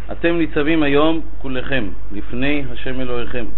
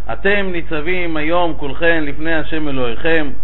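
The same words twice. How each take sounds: No difference in how they are said.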